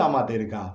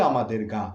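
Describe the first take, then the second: The two takes are said the same way.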